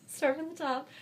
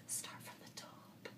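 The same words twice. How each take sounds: First: Said in the usual way. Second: Whisper. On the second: Shown as a demonstration. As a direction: whisper it very softly. Whispered aside before repeating it aloud.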